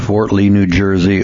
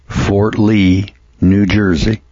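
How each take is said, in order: First: It is said fast. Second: It is said slowly.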